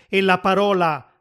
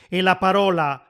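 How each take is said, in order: No difference in how they are said.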